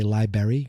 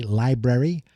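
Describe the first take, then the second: First: Library said as "lie-berry"; funny mispronunciation. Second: Said in the usual way. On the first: Shown as a demonstration. Podcaster says it because it sounds funnier, library as "lie-berry". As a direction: drop the first r in library. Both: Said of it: "or as I like to say".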